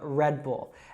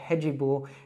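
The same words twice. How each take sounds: First: The D in red ends with no extra vowel. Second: An extra vowel sound follows the D in red. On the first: The speaker calls it right. "instead of Red Bull" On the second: The speaker calls it wrong. "in Brazil because they called it Red Bull"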